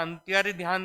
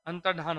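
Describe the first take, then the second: First: अंत्यारी ध्यान with "tyari" and "dhyan"; wrong form, extra syllable. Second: अंतर्धान with plain "dhaan", no y; correct form. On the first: Teacher showing students the mistake, अंत्यारी ध्यान with y glides. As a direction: say अंत्यारी ध्यान as ant-yaa-ri-dhyaan. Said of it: "अंत्यारी ध्यान नहीं होता". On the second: Teacher confirming the right word, अंतर्धान without any y glide. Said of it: "शब्द क्या होता है हमारा". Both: Shown as a demonstration.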